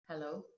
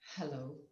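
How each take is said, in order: First: The pitch climbs higher, sounding nervous and tense. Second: The voice is soft, calm and confident. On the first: The person feels anxious and tense. The speaker calls it wrong. "My tone goes up and up, and I sound more nervous and anxious" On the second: The person feels relaxed and at ease. The speaker calls it right. "It sounds very calm, very soft, very, very confident, natural"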